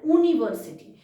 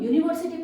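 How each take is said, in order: First: The word begins with a plain 'oo' sound. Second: The word begins with a 'y' sound. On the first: The speaker calls it wrong. "ऊ वाला pronunciation" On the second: The speaker calls it right. "इसका pronunciation वाई से है"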